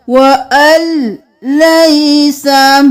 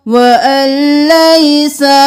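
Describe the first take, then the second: First: व अल लैसा joined slowly, not व अन लैसा; merged reading. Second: व अन लैसा with the न kept; wrong separated reading. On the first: (व अल लैसा धीरे, अन नहीं) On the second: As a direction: keep अन separate as the mistake. (व अन लैसा अलग अलग) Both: Shown as a demonstration. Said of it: "व अन लैसा नहीं करेंगे".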